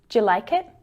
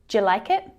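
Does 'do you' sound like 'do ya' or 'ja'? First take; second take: ja; ja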